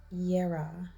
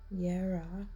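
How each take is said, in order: First: The word begins with a Y sound. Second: The word begins with a Y sound.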